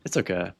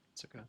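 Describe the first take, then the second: First: The phrase is said the same way but louder. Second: The phrase is said at normal, softer volume.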